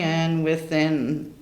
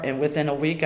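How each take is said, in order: First: "within" stretched slowly for effect; drawn-out "and within" building suspense. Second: Said in the usual way. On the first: Real, not acted.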